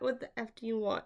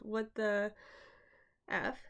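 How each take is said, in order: First: It is said in an angry, commanding tone. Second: It is said as a frightened whimper.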